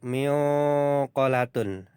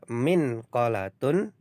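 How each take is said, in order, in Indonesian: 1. Huruf n sebelum q tersembunyi dan bersengau. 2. Huruf n sebelum q diucapkan dengan jelas. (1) "tidak harus miqalatun" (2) "Jadi boleh dibaca minqalatun"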